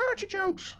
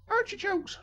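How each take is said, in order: First: Put-on a much higher old woman's voice, yelled out of nowhere; old lady yelling. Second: Put-on much higher old woman's cry, falling at the end; old lady screaming. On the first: Old lady to stranger at bus stop, much higher sudden yell. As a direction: blurt it like a batty old lady. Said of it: "yelled the old lady". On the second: Old lady rummaging in her carrier bag, much higher scream. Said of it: "she screamed".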